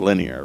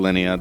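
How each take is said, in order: First: The name ends with an r sound. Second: The name ends in a vowel, with no r. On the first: This is how the translation renders the name. "the manga translates it as linear" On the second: This is the speaker's own way of saying the name. "I call her Linnea"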